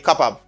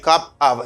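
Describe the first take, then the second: First: The two words run together into one. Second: The two words are said separately. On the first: The speaker calls it right. "say cup of" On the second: The speaker calls it wrong. "Instead of saying cup of"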